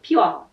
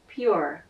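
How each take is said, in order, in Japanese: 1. 日本語風の母音と語尾で発音されています。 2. 英語で、Rを柔らかく終わらせる発音です。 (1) "日本語はよくPure とか言いますが" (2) "英語はPure じゃなくてPure"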